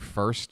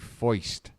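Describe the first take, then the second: First: The vowel is a plain 'er' sound. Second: The vowel is an 'oy' sound. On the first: "I don't say first" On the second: "I say foist. The proper way"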